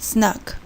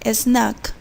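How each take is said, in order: First: The word begins directly with the S sound. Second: An extra E sound comes before the S. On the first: The speaker calls it right. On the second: The speaker calls it wrong. "we say"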